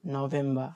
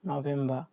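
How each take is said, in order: Both takes have the same delivery.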